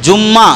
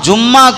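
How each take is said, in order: Both takes have the same delivery.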